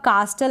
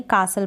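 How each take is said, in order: First: कास्टल said with the t sounded, kaas-tal; wrong take कास्टल, t clearly pronounced; कास्टल with an audible t between s and l; wrong pronunciation. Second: कासल said with a silent t, kaa-sal; right take कासल, no t at all; कासल, s flowing straight into l; correct pronunciation. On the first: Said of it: "इसको आप कास्टल ना पढ़ें". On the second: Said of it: "कासल पढ़ेंगे". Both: Shown as a demonstration.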